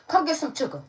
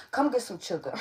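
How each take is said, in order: First: High, loud playful call; calling for kisses. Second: Said in the usual way. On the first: Real, not acted. Reader calling her pet over for kisses, playful.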